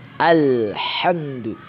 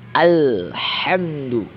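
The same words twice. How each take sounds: The two takes are said the same way.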